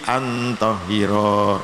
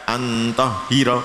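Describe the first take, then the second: First: The final vowel is held long. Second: The final vowel is cut short. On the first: The speaker calls it right. "tapi antohiro ya" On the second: The speaker calls it wrong. "tidak antohiro"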